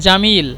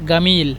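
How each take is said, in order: First: The word begins with a j sound. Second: The word begins with a hard g sound. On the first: This is the standard form of the language. "এটা শুদ্ধ ভাষা" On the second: This is how Egyptians say it. "মিশরি ভাষায় বলে গামিল"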